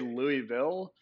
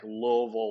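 First: The word is said clearly, starting like Louis. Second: The word is slurred and mumbled together. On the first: "I always say Louisville because it's ... named after like King Louis" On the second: "like really marble mouth"

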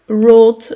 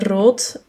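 First: The r is pronounced like an English r. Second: The r is pronounced like a Dutch r. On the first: A child who cannot produce the sound says it this way. The speaker calls it wrong. "Rood met zo'n Engelse R" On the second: This is the intended pronunciation. The speaker calls it right. "in plaats van rood"

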